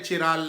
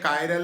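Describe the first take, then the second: First: The word begins with a ch sound. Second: The word begins with a k sound. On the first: The speaker calls it wrong. "चिराल नहीं है" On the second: The speaker calls it right. "इसीलिए ये कायरल है"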